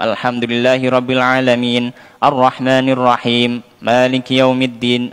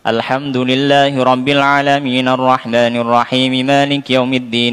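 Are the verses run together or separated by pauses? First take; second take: separated; run together. First: The verses are separated by a pause after each. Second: The verses run together without pauses between them. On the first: "Tapi dipotong. ... Jadi di dijeda" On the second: "Jadi tidak dilanjut gitu ya"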